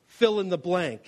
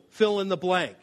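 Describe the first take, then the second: No difference in how they are said.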